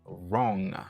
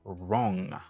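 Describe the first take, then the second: The two takes are said the same way.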